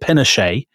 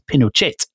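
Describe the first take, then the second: First: The name is said in an anglicized way. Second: The name is said in a Spanish-like way. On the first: This is the common British way of saying it. "everybody in Britain calls him General Pinochet" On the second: This is the supposedly more authentic way of saying it. "people who are sort of trying to be pedantic say, oh no, actually, I think you'll find it's Pinochet"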